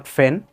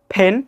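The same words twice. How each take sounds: First: "ফেন" starting with f, as in fen; lower-pitched "ফেন" with f for p; wrong f sound. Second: Pen, "ফেন" starting with a puffed p; aspirated p. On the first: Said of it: "not ফেন". (ভুল করে f দিয়ে "ফেন") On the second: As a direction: pop both lips on "ফেন". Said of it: "এরকম কিছু sound আমরা দেখি।". (ঠোঁট চেপে বাতাস ছেড়ে "ফেন") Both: Shown as a demonstration.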